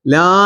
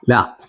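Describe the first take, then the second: First: "ലാ" held long; stretched vowel. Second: Said in the usual way. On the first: Shown as a demonstration. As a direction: draw out the vowel of "ലാ". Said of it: "നീട്ടാൻ എന്ത് വേണം". ("ലാ" നീട്ടി പറയുക) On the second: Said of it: "ലാ എന്ന് നീട്ടാൻ".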